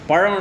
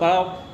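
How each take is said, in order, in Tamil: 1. நடுவில் உள்ள மெய்யெழுத்து ஒரு retroflex zh ஒலி. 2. நடுவில் உள்ள மெய்யெழுத்து ஒரு சாதாரண l ஒலி. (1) "பழம் இல்லை" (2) "வேறு சில ஏரியாக்கெல்லாம் போனோம்னா"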